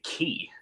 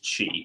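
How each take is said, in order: First: It begins with a plain k sound. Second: It begins with a ch sound. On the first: The speaker calls it wrong. "I would say Ki" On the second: The speaker calls it right. "I figured out it was it was Chi"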